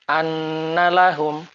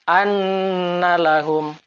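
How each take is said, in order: No difference in how they are said.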